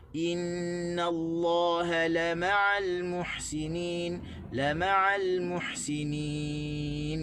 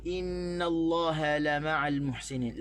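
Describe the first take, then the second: First: Slow chant with stress on "ma'al"; "la ma'al" chanted slowly with the stress on "ma'al"; correct tajwid stress. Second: "innallaha la ma'al" with the stress wrongly on "la"; common wrong stress. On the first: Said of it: "sebenarnya kita kena baca". (tekanan pada "ma'al", perlahan) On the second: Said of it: "kita biasa sebut". (tekanan salah pada "la") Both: Shown as a demonstration.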